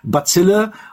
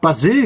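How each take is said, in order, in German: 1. Der Name wird auf Deutsch ausgesprochen. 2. Der Name wird auf Französisch ausgesprochen. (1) "ich habe es wohl immer falsch ausgesprochen" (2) "aber man sagt Basil"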